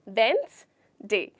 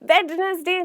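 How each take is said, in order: First: The d and middle syllable are dropped. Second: The d and middle syllable are pronounced. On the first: The speaker calls it right. "डी ... इसे हमें इस तरीके से बोलना है" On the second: The speaker calls it wrong. "वेडनेसडे नहीं होता, बिल्कुल गलत है"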